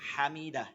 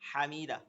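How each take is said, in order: First: The first 'ha' sound is long. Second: The same.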